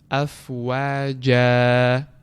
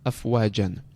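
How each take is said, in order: First: The word ends with a lengthened a, no n. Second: The word ends with a short a and n. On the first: The reader stops on the word. "we do not pronounce nun sakin at all, and we start uh, extending the haraka" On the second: The reader continues without stopping on the word. "when we do not stop on it"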